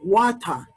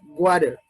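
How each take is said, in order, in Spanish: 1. Se dice con acento británico. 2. Se dice con acento americano. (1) "dicen ellos, para decir agua" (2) "En Estados Unidos nosotros decimos water"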